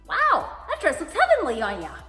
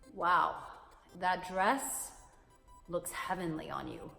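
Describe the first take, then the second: First: The tone is plain and cheerfully upbeat. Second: The tone is slow, sultry and seductive. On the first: The dress is simply nice. "It makes it sound like it's swell, it's fantastic" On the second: The compliment is meant to make her melt. "Ooh, ay, que rico, papi, melt me like some butter"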